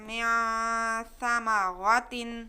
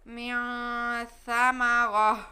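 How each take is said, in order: First: The last word ends with a t sound and vowel. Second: The last word ends with a stopped h sound. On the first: The reading continues without a stop. "जैसे हम बगैर वक्फ के पढ़ते हैं" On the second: The reading stops at this word. "ता की जगह पे हम हा पढ़ेंगे"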